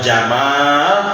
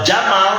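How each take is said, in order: First: The vowel after the m is long. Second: The vowel after the m is short. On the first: It means beauty. "Harus panjang mimnya Pak, jangan salah" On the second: It means camel. "Kalau jamal unta"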